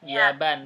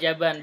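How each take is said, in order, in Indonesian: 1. Kata itu dimulai dengan bunyi y. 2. Kata itu dimulai dengan bunyi j. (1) "Pakai ya" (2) "Bukan jaban. Bukan pakai jim"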